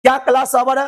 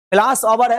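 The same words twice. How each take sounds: First: "क्या class ओवर है" high, rising at the end; asking question. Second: "class ओवर है" said as a plain announcement; telling statement. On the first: Teacher is asking students, rising question intonation. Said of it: "हम आपसे पूछ रहे हैं". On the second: Teacher is telling students something, statement intonation. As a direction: state "ओवर है" without raising it into a question. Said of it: "हम आपको कह रहे हैं". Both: Shown as a demonstration.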